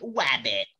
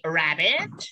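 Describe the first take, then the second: First: The word begins with a w sound. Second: The word begins with an r sound. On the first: "berubah menjadi wabbit" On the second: "liquid sound eh, contohnya di sini rabbit berubah menjadi"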